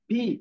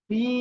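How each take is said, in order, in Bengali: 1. স্বরটি ছোট করে বলা হয়। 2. স্বরটি টেনে দীর্ঘ করে বলা হয়। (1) "অনেকে বলে ফি, এটা বললে ভুল" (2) "এই যে আমি যেভাবে বলতেছি এভাবে বলতে হবে"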